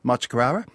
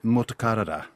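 First: The name begins with the syllables 'Machi'. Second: The name begins with the syllables 'Motu'. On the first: This is the old local mispronunciation. The speaker calls it wrong. "a place that the locals called way back in the 70s" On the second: This is the place's actual name. The speaker calls it right. "its name is actually Motukarara"

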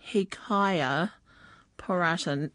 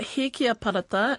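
First: The first name ends with the sounds 'kaya'. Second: The first name ends with the sounds 'kia'. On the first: The speaker calls it wrong. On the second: The speaker calls it right.

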